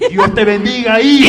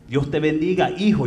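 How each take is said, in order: First: It is said imitating the pastor's way of speaking. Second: It is said plainly, not like the pastor.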